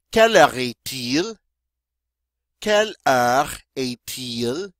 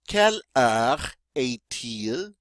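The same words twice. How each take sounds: First: "Quelle heure est-il?" with a uvular r and a rising tune; French model question. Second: "Quelle heure est-il?" drawn out with a rise at the end; slower model take. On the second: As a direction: say "Quelle heure est-il?" slowly so students can follow. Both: Shown as a demonstration. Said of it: "And this means".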